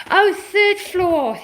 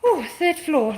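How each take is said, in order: First: Oh drawn out higher, slow; slow dawning realization. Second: Said in the usual way. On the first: Shown as a demonstration. Vlogger realizing where the router went, slow surprise. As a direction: let it sink in, stretching "Oh". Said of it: "Oh, third floor (first take)". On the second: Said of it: "Oh, third floor (said again)".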